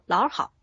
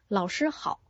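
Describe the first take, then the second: First: The middle syllable is swallowed almost completely. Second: All three syllables are pronounced clearly.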